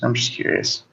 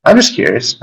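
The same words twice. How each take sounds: First: Soft whispered repeat; whispering. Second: Said in the usual way. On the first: Real, not acted. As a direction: whisper it coyly.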